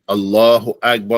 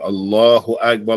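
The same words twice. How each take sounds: First: A long pause separates the two phrases. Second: The two phrases run together almost without pause. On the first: "You pause. ... Pause for the duration of saying Allahu Akbar" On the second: "you're not pausing after each Allahu Akbar. Or you saying them together"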